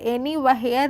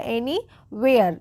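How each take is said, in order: First: Anywhere as "eni-va-her", the h sounded; wrong pronunciation. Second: Anywhere as "eni-veyar", the h silent; correct pronunciation. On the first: Teacher warns learners off this reading, mispronounced with h. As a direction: split "where" in anywhere with an audible h. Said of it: "anywhere नहीं". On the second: Teacher shows the silent h, slowly and correctly pronounced. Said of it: "एच जो है वो silent होती है". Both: Shown as a demonstration.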